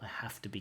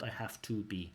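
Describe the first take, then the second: First: The words 'have to' are reduced and linked. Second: The words 'have to' are fully pronounced. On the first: The speaker calls it right. "I have to be careful" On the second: The speaker calls it wrong. "not I have to be"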